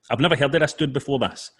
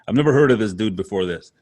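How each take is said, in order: First: It is said in a non-American accent. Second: It is said in an American accent.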